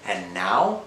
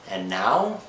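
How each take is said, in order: Both takes have the same delivery.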